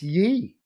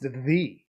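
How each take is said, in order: First: The word begins with a y sound. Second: The word begins with a th sound. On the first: The speaker calls it wrong. "not ye" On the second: The speaker calls it right. "It would be pronounced the"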